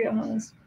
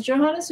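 First: Johannes begun with a Y, "Yo-HAH-nes"; German-style Y opening Johannes; Johannes with Y sound. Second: Johannes begun with an English J, "Jo-HAH-nes"; English-style J opening Johannes; Johannes with J sound. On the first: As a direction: say the J of Johannes like the Y in "yes". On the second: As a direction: say Johannes with the J of "John". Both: Shown as a demonstration. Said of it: "Is it Johannes or Johannes?".

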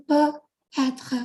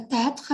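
First: Peut, then a pause, then être; words separated. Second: Peut-être run together as one linked word, the final t of peut sounded into être; liaison. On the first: Teacher showing the two words behind the liaison, peut and être said apart. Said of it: "จริงๆมันคือ peut". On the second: Teacher showing learners how peut-être links up, said as one joined word. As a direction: link peut-être with no break. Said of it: "เชื่อมเสียง". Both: Shown as a demonstration.

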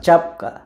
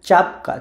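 The two takes are said the same way.

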